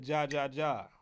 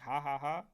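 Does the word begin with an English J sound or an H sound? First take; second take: J sound; H sound. First: Each syllable starts with an English J sound. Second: Each syllable starts with an H sound. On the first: "You don't really pronounce the J. I'm so American" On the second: "is that how you pronounce it? Like, ha ha ha"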